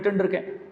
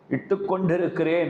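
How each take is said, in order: First: The verb is said in a shortened form. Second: The verb is said in its full form. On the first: This is how people say it locally. "बोली ऐसा है यहां" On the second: This is the correct formal word. "सही शब्द तो वो है"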